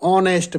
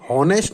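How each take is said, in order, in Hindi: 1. यह शब्द सीधे स्वर से शुरू होता है। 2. यह शब्द h ध्वनि से शुरू होता है। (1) "इसको सही रूप से बोला जाता है" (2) "ये हॉनेस्ट नहीं बोला जाता"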